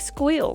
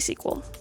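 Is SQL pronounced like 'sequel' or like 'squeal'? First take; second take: squeal; sequel. First: It is said as one syllable, 'squeal'. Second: It is said as two syllables, 'sequel'. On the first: "I do not say squeal" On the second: "I say sequel"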